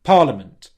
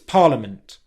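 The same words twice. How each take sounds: First: The T ends with only a small puff. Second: The T ends with only a small puff.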